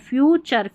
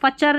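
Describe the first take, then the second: First: The first syllable is a long 'fyoo'. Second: The first syllable is a short 'fuh'. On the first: The speaker calls it right. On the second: The speaker calls it wrong.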